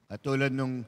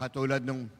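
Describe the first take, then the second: No difference in how they are said.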